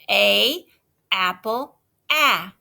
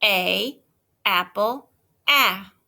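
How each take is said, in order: First: "ah" said short and open; saying ahh. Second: "ah" repeated short and clear; saying ahh. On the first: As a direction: stress the short "ah" in "apple". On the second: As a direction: echo "A, apple, ah" the same way. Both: Shown as a demonstration. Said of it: "say it".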